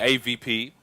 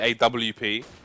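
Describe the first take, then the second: First: Spelled out as letters, with V in the middle. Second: Spelled out as letters, with W in the middle. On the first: This is how Nordic players say it. "Nordics say" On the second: This is how the casters themselves say it. "We say"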